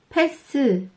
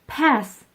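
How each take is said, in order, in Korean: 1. 마지막 자음 뒤에 모음이 붙어요. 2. 단어는 자음 그대로 끝나요. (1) "으 받침 넣어서 발음하시면 이상해요. 키스, 패스 이게 아니고" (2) "이렇게 발음하세요"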